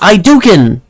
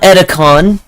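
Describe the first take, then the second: First: The name sounds like Hadouken. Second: The name does not sound like Hadouken. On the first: The speaker calls it right. "Now I know how to pronounce it because of Hadouken" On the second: The speaker calls it wrong. "It's not Edicon"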